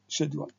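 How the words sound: It is said with a British pronunciation. "The British is schedule"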